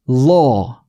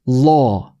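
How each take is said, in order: Both takes have the same delivery.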